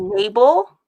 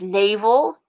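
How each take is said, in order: First: It is said with a variant, different pronunciation. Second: It is said with the standard pronunciation. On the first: "people say navel" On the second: "the word is navel"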